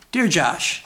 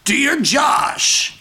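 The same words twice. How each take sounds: First: It is said in a normal speaking voice. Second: It is said in a put-on impersonation voice. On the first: "Don't do the voice" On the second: "Sure, I'll do a voice"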